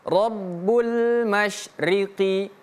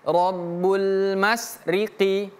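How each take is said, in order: First: The word has an sh sound after 'ma'. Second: The word has a plain s sound after 'ma'. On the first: The speaker calls it right. "bukan mas tapi mash" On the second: The speaker calls it wrong. "jangan membacanya seperti ini"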